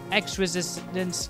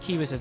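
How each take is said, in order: First: The first word is pronounced like the letter ex. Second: The first word is pronounced like the word key.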